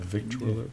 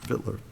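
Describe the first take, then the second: First: Every written syllable of the word is pronounced. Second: The word is shortened to two syllables. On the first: The speaker calls it wrong. "I always try to say the whole thing" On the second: The speaker calls it right. "it's just Vittler"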